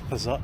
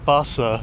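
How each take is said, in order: First: It is said in the speaker's usual pronunciation. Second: It is said imitating a local accent.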